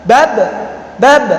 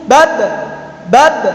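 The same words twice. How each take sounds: Both takes have the same delivery.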